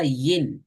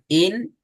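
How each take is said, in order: First: இன் said as "yin", with a "y" glide. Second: இன் as a clean "in", starting on the vowel; alif "in". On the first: Teacher showing how ya sounds, gliding "yin". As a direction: start இன் with a raised-tongue "y". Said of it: "யாவை வச்சா". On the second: Teacher showing how alif sounds, clean vowel-first "in". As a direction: say இன் with no "y" glide. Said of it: "அலிஃப் வச்சா". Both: Shown as a demonstration.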